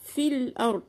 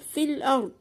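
First: The first word's vowel is dropped, linking straight on. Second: The same.

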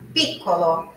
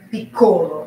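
First: The stress falls on the first syllable. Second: The stress falls on a later syllable. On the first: The speaker calls it right. "sílaba tônica no ti" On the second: The speaker calls it wrong. "não é piccolo"

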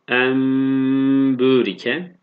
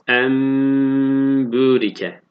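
No difference in how they are said.

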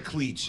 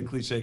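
First: It is said as one syllable, ending 'eech'. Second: It is said with two syllables, ending 'shay'. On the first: "as I'm sure is how he would pronounce it" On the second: "He did get a cliche correct"

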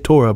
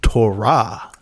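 First: The stress is on the first syllable. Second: The stress is on the last syllable. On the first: The speaker calls it wrong. "us English speakers put the accent on the first syllable" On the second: The speaker calls it right. "I meant to tell you it's Torah"

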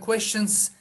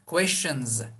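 First: The final sound is a hissing s. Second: The final sound is a buzzing z. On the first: The speaker calls it wrong. "questions dememiz de doğal seslenmiyor" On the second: The speaker calls it right. "Sonunda Z gibi telaffuz yapacağız"

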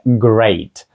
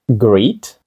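First: The vowel is an 'ay' sound. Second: The vowel is a long 'ee' sound. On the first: The speaker calls it right. "це great ... звук Ей" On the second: The speaker calls it wrong. "Greet? Gret? Ні"

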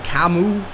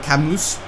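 First: The name ends without an s sound. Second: The name ends with an s sound. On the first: The speaker calls it right. "the way you actually pronounce the Cam is Kamu" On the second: The speaker calls it wrong. "not Camus"

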